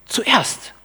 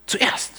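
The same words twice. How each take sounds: First: Zuerst said high and falling hard; stress on zuerst. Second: Zuerst breathed in a whisper. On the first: Preacher stressing his key word, zuerst high and falling. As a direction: lean on zuerst, pitch up then drop. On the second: Preacher repeating his key word to the congregation, whispered. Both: Shown as a demonstration. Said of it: "meine Betonung liegt auf dem Begriff zuerst".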